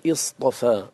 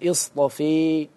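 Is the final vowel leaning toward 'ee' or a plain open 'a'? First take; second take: open; leaning. First: The final vowel is a plain open 'a'. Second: The final vowel leans toward an 'ee' sound.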